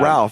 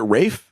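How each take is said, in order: First: The name is said with an audible 'l' sound. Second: The name is said as 'Rafe', with no 'l'. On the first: The speaker calls it wrong. "you keep saying" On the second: The speaker calls it right. "isn't it Rafe?"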